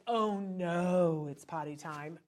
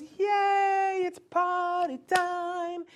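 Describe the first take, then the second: First: The wrong way, a mopey groan; glum dread. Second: High, loud, stretched-out yay; whole family cheering the toddler on; the right way, a big happy shout; excited cheer. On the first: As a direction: sound like potty time is a chore. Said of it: "It's not like". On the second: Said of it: "the whole family goes". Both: Shown as a demonstration.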